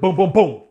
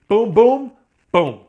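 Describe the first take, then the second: First: All three booms run together without pausing. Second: A short pause comes before the last boom. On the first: The punches came as one continuous combination. "like that kind of a combination" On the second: The final punch was delayed slightly. "There was a half split second pause after that right hand"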